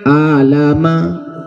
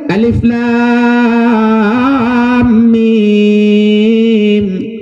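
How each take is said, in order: First: The letters are blended into one short word. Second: Each letter is said by its full name. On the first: The speaker calls it wrong. "Iji baca alama" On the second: The speaker calls it right. "Dia baca lagi huruf"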